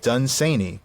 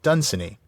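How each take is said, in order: First: The stress is on the second syllable. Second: The stress is on the first syllable. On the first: The speaker calls it right. "with the accent on the second syllable" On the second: The speaker calls it wrong. "The one way that nobody should pronounce my name"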